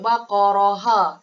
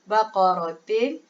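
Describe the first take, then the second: First: The word ends with a voiced 'ha' syllable. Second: The word ends with a full 'tin' syllable. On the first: "kita tak boleh sebut baqaraha. Tak boleh" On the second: "tak boleh baca baqaratin"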